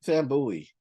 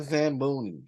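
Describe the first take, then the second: First: Zamboni said as "zam-BOO-ee"; mangled pronunciation. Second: Said in the usual way. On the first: Real, not acted. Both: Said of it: "Y'all know I can't talk English".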